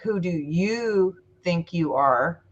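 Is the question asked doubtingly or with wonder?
with wonder. It is asked in a wondering, open tone.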